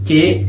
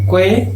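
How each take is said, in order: First: First "que" as ke; k straight into e on "que"; silent U. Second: Second "que" as kwe; sounded U. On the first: Teacher showing the syllable sound, U silent. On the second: Teacher showing the other syllable sound, U pronounced. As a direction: glide through w in "que". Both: Shown as a demonstration. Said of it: "va a tener sonido de".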